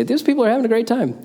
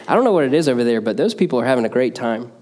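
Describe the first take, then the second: First: Much higher, bright delighted exclamation; high delighted exclaim. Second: Said in the usual way. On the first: Retold or imitated. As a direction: lift it way up like an amazed outsider. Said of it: "would be able to intrinsically say". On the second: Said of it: "would say".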